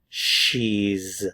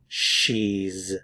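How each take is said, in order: First: It is said as one contracted syllable. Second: It is said as one contracted syllable.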